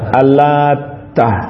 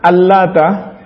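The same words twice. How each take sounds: First: The t sound is doubled and held longer. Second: The t sound is short and single. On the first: "Ini taknya ditasydid" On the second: "taknya tanpa tasydid"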